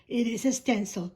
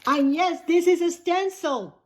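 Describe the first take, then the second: First: Said in the usual way. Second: Emphatic correction. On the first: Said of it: "Thank you, Trish". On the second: Real, not acted. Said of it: "Thank you, Trish, for bringing it to my attention".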